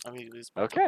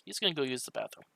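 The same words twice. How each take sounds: First: Higher, louder character voice; in-character announcement. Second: Said in the usual way. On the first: Acted. Player voicing Mumbles leaving for bathroom, raised announcing voice. Same line restated as the character.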